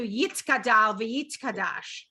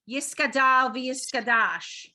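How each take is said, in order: First: The words are said with a 't' sound. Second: The words are said with an 's' sound. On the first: "As opposed to" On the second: "I'm sure you've heard that"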